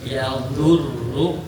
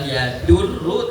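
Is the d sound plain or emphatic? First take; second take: emphatic; plain. First: The d sound is a heavy emphatic d. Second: The d sound is a plain d. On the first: The speaker calls it right. "tetapi ya'udhurru" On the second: The speaker calls it wrong. "bukan yadurru"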